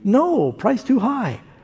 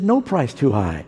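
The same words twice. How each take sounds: First: There is a pause after "no". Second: It runs on with no pause after "no".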